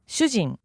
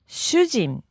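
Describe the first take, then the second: First: The word is said at natural full speed. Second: The word is said slowly and carefully. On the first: "And full speed" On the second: "can you give us that pronunciation one more time?"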